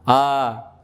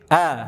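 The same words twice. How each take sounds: First: The vowel is a plain, fully open a. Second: The vowel lies between a and e. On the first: This is the local way of saying the vowel. The speaker calls it wrong. "Kalau fathah kita gimana?" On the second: The speaker calls it right. "pertengahan dia antara A sama E"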